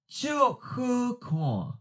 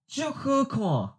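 First: The phrase is said slowly and deliberately. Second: The phrase is said at normal conversational speed. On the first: "and then slowly" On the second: "First natural speed"

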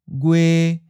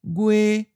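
First: The pitch stays level in the middle. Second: The pitch stays level and high. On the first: "a mid flat" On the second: "In other regions, it may sound like a high flat"

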